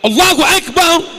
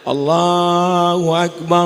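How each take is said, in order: First: It is called out loudly. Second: It is said in a soft voice.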